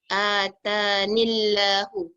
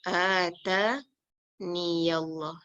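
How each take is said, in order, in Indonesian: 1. Bunyi 'y' dihilangkan sebelum 'allah'. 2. Bunyi 'y' terdengar sebelum 'allah'. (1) "kita tak boleh baca atanillahu" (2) "long form dia"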